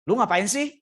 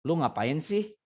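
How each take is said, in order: First: The question is asked in a sharp, angry tone. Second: The question is asked in a calm, relaxed tone. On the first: The person is attacking and rude. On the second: The person is just casually asking.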